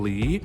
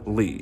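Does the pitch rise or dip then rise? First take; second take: rise; dip-rise. First: The pitch rises smoothly from mid-low. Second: The pitch dips low, then rises. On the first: "the second tone" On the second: "with the third tone"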